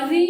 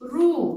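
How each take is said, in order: First: The letter is said with an 'ee' vowel. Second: The letter is said with an 'oo' vowel. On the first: "रू का उच्चारण री भी किया जाता है"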